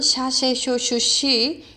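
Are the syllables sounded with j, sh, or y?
sh. The syllables begin with an sh sound. "아르헨티나 칠레 쪽은"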